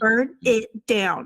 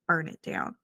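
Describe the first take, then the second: First: It is said with pauses between the words. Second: It is said smoothly without pauses between words.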